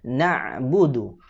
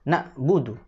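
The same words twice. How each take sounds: First: The ain sound is sustained with flowing voice. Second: The ain sound is cut off like a glottal stop. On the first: The speaker calls it right. "Yang harus dilakukan adalah mengalirkan suaranya" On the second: The speaker calls it wrong. "kalau kemudian ainnya tidak dialirkan, maka berubah menjadi hamzah"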